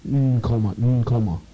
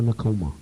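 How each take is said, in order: First: Nkomo with the initial N hummed as its own sound; emphasized N. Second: Said in the usual way. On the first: Shown as a demonstration. Correcting a listener on the name Nkomo, emphasized opening N. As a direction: stress the N in Nkomo, holding it before "komo". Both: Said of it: "N is emphasized".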